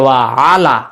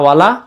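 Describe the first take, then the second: First: The two words are said apart with both vowels. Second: The two words are merged into one short word. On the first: The speaker calls it right. "তত জায়গায় ওয়া আলা" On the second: The speaker calls it wrong. "যত জায়গায় আমরা বলছিলাম ওয়ালা ওয়ালা"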